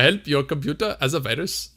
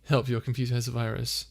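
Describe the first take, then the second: First: Badly faked Indian accent, a little raised. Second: Said in the usual way. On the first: Shown as a demonstration. Streamer reading a chat request aloud, terrible fake Indian accent. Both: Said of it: "my terrible attempt at an Indian accent".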